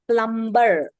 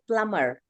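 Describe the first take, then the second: First: A B sound is heard in the middle. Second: No B sound is heard in the middle. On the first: The speaker calls it wrong. "We don't say plumber" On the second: The speaker calls it right. "we say plumber... B is silent"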